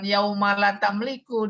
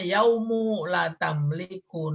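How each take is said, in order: First: The first word ends with an 'a' vowel. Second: The first word ends with a 'u' vowel. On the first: The word follows an earlier word in the verse. "Ada juga yang baca kan yauma la tamliku" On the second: The word is nominative, as a predicate. "dibacanya yaumu la tamliku nafsun"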